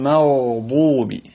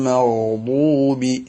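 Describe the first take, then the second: Both takes have the same delivery.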